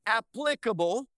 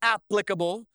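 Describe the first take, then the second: First: "applicable" stressed on PLIC; stress on second syllable. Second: "applicable" with a loud first syllable; stress on first syllable. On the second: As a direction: say "applicable" as AP-plicable. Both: Shown as a demonstration. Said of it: "what syllable you put the emphasis on".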